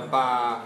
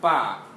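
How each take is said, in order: First: The syllable is said with a low pitch. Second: The syllable is said with a falling pitch. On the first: "声调低一点" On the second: "看声调下去啊"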